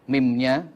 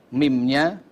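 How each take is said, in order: The two takes are said the same way.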